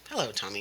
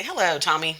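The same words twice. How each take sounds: First: Lower, softer echo of the greeting; copycat child. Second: Put-on higher, sing-out greeting for a child to copy; teacher's greeting. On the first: Acted. Line leader copying the teacher, copycat echo. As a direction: parrot the greeting back quietly. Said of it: "And they say". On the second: Teacher starting a copy-me game with Tommy, playful greeting. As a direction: call it out as a model to be copied. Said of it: "I'll say".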